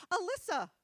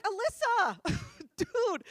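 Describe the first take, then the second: First: High, cheery mock-innocent answer; imitating naive friend. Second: Loud, high mock outrage; appalled scolding. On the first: Friend gives creeps her name, mock-innocent. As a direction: chirp the name obligingly. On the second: Girl scolds friend for answering creeps, appalled. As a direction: cry the name out in disbelief.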